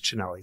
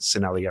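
First: The name begins with a ch sound. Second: The name begins without a ch sound. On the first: The speaker calls it right. "the proper way is Cinelli" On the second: The speaker calls it wrong. "never say Cinelli ever again"

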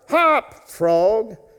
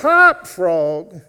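First: It is said a little louder. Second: It is said as loud as possible.

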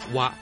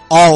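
First: The syllable is pronounced 'wa' with a level tone. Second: The syllable is pronounced 'ao'. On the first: This is the alternative reading used in the name. "还有一个读音是 哇，第一声" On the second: This is the standard Mandarin reading. "普通话应该是凹"

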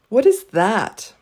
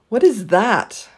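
The two takes are said the same way.

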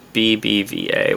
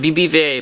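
First: The letters are said slowly. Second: The letters are said fast.

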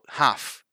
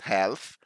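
First: The L sound is silent in the word. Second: The L sound is pronounced in the word. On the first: The speaker calls it right. "We don't actually pronounce that L. So half" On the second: The speaker calls it wrong. "We don't say half, not half"

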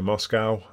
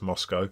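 First: Moscow is said with an American accent. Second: Moscow is said with a British accent. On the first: "I said that in a very American way" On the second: "for anyone English, that's Moscow"

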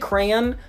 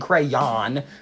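First: Two syllables with a light, subtle Y sound. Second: The final syllable is a strong, drawn-out yawn. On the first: The speaker calls it right. "I'm still pronouncing the Y sound, but it's subtle" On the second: The speaker calls it wrong. "emphasizing that yawn at the end"

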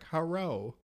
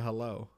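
First: The L is pronounced as an R sound. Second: The L is pronounced as a clear L. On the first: "the L makes the R sound. So when they look at it and they're translating, they're like" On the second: "instead of"

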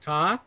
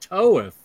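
First: The vowel is a short o sound. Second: The vowel is a long oh sound. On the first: The speaker calls it wrong. "It's not Alex Toth" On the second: The speaker calls it right. "it's pronounced Toeth"

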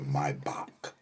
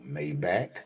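First: The name is said the German way. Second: The name is said the non-German way. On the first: The speaker calls it right. "Because I was in Germany. That ain't what the car called" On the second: The speaker calls it wrong. "you mispronouncing that car"

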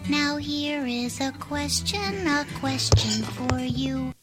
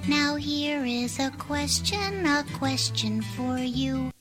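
The two takes are said the same way.

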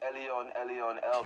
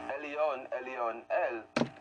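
First: It is said very fast. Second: It is said slowly and carefully.

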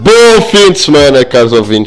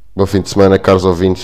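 First: It is said in a loud, lively voice. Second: It is said in a calm, smooth voice.

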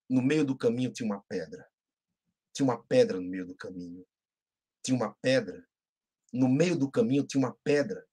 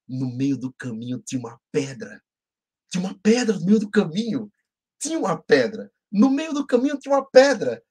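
First: It is recited in a gloomy, negative way. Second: It is recited in a happy, positive way.

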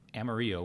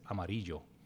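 First: It is said with an American English pronunciation. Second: It is said with a Spanish pronunciation.

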